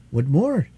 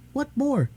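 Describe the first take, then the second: First: Put-on the boy asks back, less high; miner boy. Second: Put-on high curious little girl asking; a child's bright question, pitched up high; little princess. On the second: Irene asks about his name.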